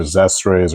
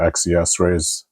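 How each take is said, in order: First: ZES RAYS with Zes as one syllable; read as one word. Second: X E S RAYS, letter by letter; spelled-out letters. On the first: Reviewer offering one possible brand pronunciation, Zes as one word. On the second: Reviewer offering the other brand pronunciation, X E S spelled out. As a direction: say "X E S Rays" with each letter named. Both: Shown as a demonstration. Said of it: "not sure how that's pronounced".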